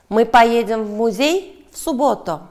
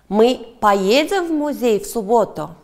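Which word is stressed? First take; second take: музей; поедем. First: The stress falls on the word 'музей'. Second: The stress falls on the word 'поедем'. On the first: The question asks where they will go. "Да, в музей" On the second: The question asks whether they will go. "Да, поедем"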